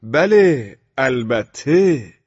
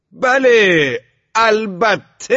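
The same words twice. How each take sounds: First: «بله، البته» stretched slowly, raised and falling; drawn-out tone. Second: «بله، البته» shouted high, drawn long; very loud yell. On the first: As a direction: drag out «البته» insolently while staring him down. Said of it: "با لحنی کشیده گفتم". («بله، البته» با لحنی کشیده) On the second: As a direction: yell «البته» at the top of your lungs, stretching it. («بله، البته» با فریاد بسیار بلند و کشیده) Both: A narrator's reading.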